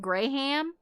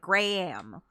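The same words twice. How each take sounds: First: The H is sounded fully between the vowels. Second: The vowels are separated by a faint H. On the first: "fully pronouncing the H like I do" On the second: "not saying the H fully, but he's going like"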